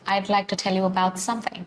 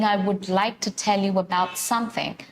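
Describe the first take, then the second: First: I would is joined into one syllable. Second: I would is said as two full words. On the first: "That's how I'm saying" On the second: "I'm not saying I would like to tell you about something"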